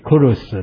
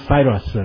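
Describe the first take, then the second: First: The name begins with a K sound. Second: The name begins with an S sound. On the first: This is the original form of the name. The speaker calls it right. "正确的发音是Kurus 啦" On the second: This is the English form of the name. The speaker calls it wrong. "当然这个英语吼，讲Cyrus 啦"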